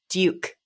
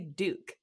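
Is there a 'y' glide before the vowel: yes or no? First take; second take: yes; no. First: The vowel has a y glide before it. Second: The vowel has no y glide before it. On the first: "but you would say Duke" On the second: "I say Duke"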